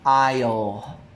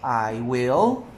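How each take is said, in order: First: One contracted syllable, will reduced. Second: Two full words, will fully pronounced. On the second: "long form"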